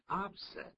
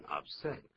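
First: "upset" stressed on UP; stress on first syllable. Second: "upset" stressed on SET; stress on second syllable. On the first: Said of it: "当名词念成upset". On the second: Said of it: "当形容词念成upset". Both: Shown as a demonstration.

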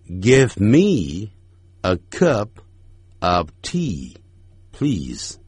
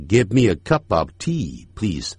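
First: Each word of Give me a cup of tea please spaced out; slowly. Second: Fast, linked. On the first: Teacher reading the sentence slowly for practice. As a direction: read it word by word, unhurried. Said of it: "所以我们慢慢念". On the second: Teacher showing the fast linked version. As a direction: Give me a cup of tea please run together quickly. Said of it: "念快的时候". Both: Shown as a demonstration.

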